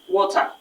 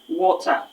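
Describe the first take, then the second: The two takes are said the same way.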